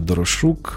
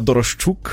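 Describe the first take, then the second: First: The middle sound is a plain 'sh'. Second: The middle sound is a 'shch' cluster. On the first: The speaker calls it wrong. "Я вибачаюсь" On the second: The speaker calls it right. "як щука, риба, так, щука, от Дорошчук є"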